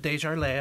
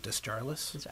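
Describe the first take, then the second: First: The name is pronounced the French way. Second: The name is pronounced the English way. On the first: This is the name's original form. "so it's French. So if you said Desjardins, I would not be offended" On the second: This is how the family says it. "my family anglicized it, and we do Desjarlis"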